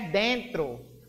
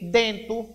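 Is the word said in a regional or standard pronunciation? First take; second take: standard; regional. First: The word is said with the standard pronunciation. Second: The word is said with a regional pronunciation. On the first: This matches the written form. The speaker calls it right. "Mas a pronúncia certa é dentro" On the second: This is how it is said locally. The speaker calls it wrong. "Já a gente tem o quê? Dentro"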